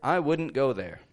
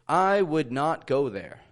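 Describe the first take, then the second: First: 'Would not' is shortened to 'wouldn't'. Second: 'Would not' is said as two full words. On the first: The speaker calls it right. "but rather" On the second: The speaker calls it wrong. "I wouldn't often say"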